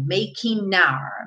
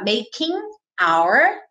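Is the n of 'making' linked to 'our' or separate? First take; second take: linked; separate. First: The n runs straight into the next vowel. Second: The n is kept apart from the next word. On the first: "pegar esse N e juntar na vogal, que foi o que ele fez mesmo" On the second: "ele poderia falar making our music there"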